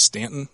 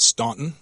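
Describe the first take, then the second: First: The first vowel sounds like the one in 'can'. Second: The first vowel sounds like the one in 'lawn'. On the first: The speaker calls it right. "it is pronounced Stanton" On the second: The speaker calls it wrong. "not Staunton"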